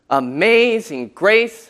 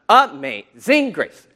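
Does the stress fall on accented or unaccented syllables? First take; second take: accented; unaccented. First: The stress falls on the normally accented syllables. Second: The stress falls on normally unaccented syllables. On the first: The speaker calls it right. "You hear where you emphasize the words" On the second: The speaker calls it wrong. "not Amazing Grace, how sweet. That just sounds awful"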